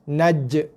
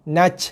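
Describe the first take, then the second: First: The final consonant ends with a short echoing bounce. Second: The final consonant ends in a breathy, airy hiss. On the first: The speaker calls it right. "Dia yang betul naj" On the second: The speaker calls it wrong. "Itu bukan bunyi qalqalah, itu bunyi angin"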